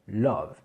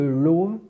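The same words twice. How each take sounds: First: The vowel is a fairly closed a-like sound. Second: The vowel is a rounded French-style o. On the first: The speaker calls it right. "on dit bien love, ça se rapproche plus du A un petit peu plus fermé" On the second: The speaker calls it wrong. "au lieu de love"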